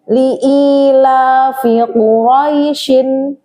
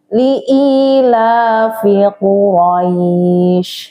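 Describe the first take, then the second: First: The last word ends with a vowel and n. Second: The last word ends on the sh sound.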